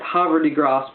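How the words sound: The name is said with a French pronunciation. "The French might pronounce it"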